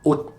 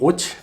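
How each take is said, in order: First: The final T is held back, not released. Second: The final T is released with a burst. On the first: The speaker calls it right. "é um T bem contido" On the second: The speaker calls it wrong. "nem ot"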